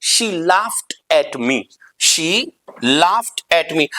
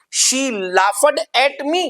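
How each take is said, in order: First: "laughed" said slowly, ending in a crisp t, laft; right pronunciation. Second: "laughed" said slowly as laugh-ed with a d; wrong pronunciation. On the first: Teacher slowly modelling the correct "laughed" ending in t. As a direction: slowly close "laughed" on a sharp t. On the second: Teacher slowly showing the wrong "laughed" with d. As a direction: stretch "laughed" out into lafed. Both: Shown as a demonstration. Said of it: "no, the right pronunciation".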